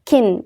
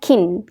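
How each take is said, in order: First: The vowel is a short i-like sound. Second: The same.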